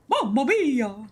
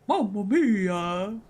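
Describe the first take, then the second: First: A high, squeaky cartoon-mouse voice. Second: A fast, exaggerated cartoon Italian voice. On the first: The speaker calls it wrong. "that sounded like Mickey Mouse" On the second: The speaker calls it right. "I'm literally Mario on, on speed"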